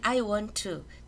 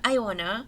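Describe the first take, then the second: First: Each word is pronounced fully and separately. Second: 'Want to' is blended into 'wanna'. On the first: "발음할 땐 I want to" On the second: "또는 I wanna eat"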